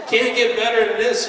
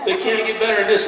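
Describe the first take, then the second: First: Higher, louder, rising in wonder; as if the show just can't be topped; incredulous and thrilled; peak amazement. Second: Higher, louder, laughing disbelief; giddy, breathless wonder; mounting amazement. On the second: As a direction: laugh it out as the show tops itself again. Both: Retold or imitated. Mock awe at show escalating.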